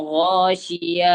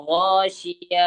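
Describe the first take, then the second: The two takes are said the same way.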